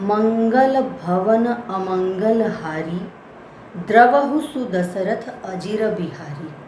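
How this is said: There is a pause after the first half. The speaker calls it right. "अब इसमें हारी की बात भी रुके हैं"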